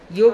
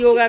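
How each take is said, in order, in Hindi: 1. शब्द का अंत व्यंजन g पर होता है। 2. शब्द के अंत में एक दीर्घ 'aa' स्वर जुड़ा है।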